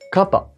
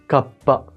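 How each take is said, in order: First: There is no pause before the p. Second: There is a brief pause before the p. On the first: "si tu enlèves le petit tsu, on va lire kappa" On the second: "Dans le premier mot"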